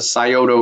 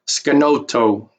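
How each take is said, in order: First: The name is said as Scioto. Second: The name is said as Skanoto. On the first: This is the common modern name. The speaker calls it wrong. "they mispronounce this river valley" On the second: This is the original name, meaning deer river. The speaker calls it right. "more appropriately uh, called Skanoto"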